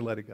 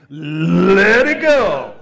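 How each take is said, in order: First: It is said plainly, with no attitude. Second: It is said with attitude and a rough throat.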